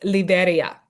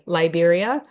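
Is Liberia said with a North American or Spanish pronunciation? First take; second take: Spanish; North American. First: Liberia is said with a Spanish pronunciation. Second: Liberia is said with a North American pronunciation. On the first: The speaker calls it right. "It's Liberia" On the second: The speaker calls it wrong. "All us North Americans say Liberia"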